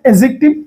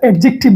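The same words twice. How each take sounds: First: The d sound is left out. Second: The d sound is clearly pronounced. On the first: The speaker calls it right. "ডিটা উচ্চারিত হবে না" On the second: The speaker calls it wrong. "এটা অ্যাডজেক্টিভ নয়"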